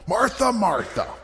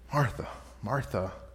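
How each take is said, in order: First: It is said in an angry, rebuking tone. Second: It is said in a gentle, compassionate tone. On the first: The listener is being scolded. The speaker calls it wrong. "some kind of rebuke by Jesus where he's angry at Martha" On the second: The listener is being lovingly taught something. The speaker calls it right. "There's compassion"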